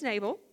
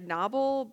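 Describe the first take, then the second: First: The first syllable does not sound like 'nob'. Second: The first syllable sounds like 'nob'. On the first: This is how the name is said in the South. "I live in the South, so today he's Nabal" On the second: This is thought to be the proper pronunciation. "I think you pronounce it like Nobble"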